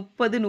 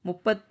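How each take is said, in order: First: The middle consonant is a soft single d. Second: The middle consonant is a hard double t. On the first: The speaker calls it wrong. "எல்லாருமே முப்பது முப்பதுன்னு pronounce பண்ணுறாங்க, அது அப்படி சொல்லக்கூடாது" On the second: The speaker calls it right. "முப்பத்து மூன்று"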